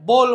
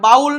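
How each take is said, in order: First: The vowel sounds like 'oh'. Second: The vowel sounds like 'ow'. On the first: The speaker calls it right. "એને બોલ" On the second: The speaker calls it wrong. "બાઉલ નહીં વાંચવાનું"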